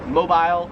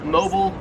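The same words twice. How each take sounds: First: It is pronounced the Australian way. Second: It is pronounced the American way.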